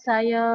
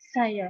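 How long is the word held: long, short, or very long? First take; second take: very long; short. First: The word is drawn out very long. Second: The word is said very briefly. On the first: "Tekanan kata agak panjang sekali. Panjanglah" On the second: "tekanan kata pendek sekali"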